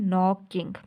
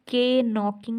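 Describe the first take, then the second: First: The word starts directly with an n sound. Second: A k sound is pronounced at the start. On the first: The speaker calls it right. "हम बोल रहे हैं नॉकिंग" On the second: The speaker calls it wrong. "हम के नॉकिंग नहीं बोल रहे"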